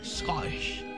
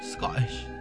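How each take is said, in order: First: The word is said in a plain, standard accent. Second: The word is said in a put-on Scottish accent.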